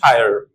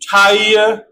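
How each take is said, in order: First: Shorter vowel ending in a clear r sound. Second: Long gliding vowel with no r at the end.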